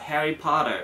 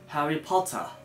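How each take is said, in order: First: The T sounds like D; final R strongly curled. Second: The T is crisp; the R is weak. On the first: "アメリカ英語だとHarry Potter みたいな感じでちょっとそのT の音が弱くなって、まあ、なんかD みたいな発音になって最後のR を強く曲げる" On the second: "イギリス英語だとHarry Potter, Harry Potter みたいな感じにその、まあ、R が弱いのとあのT の音をしっかり発音する"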